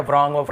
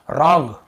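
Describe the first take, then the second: First: व्रॉन्ग with a V sound before R; wrong pronunciation. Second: रॉन्ग starting straight on R; correct pronunciation. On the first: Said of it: "हम पढ़ ही नहीं रहे". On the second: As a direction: say रॉन्ग with no W before the R. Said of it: "डब्ल्यू को नहीं पढ़ना". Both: Shown as a demonstration.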